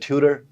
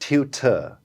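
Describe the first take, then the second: First: It is said in an American accent. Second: It is said in a British accent. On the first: "American जाके बोल देगा ट्यूटर, वो ठ ड का साउंड उसके यहाँ आ जाता है" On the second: "एक ब्रिटिश बोलते हैं ना ट्यूटर"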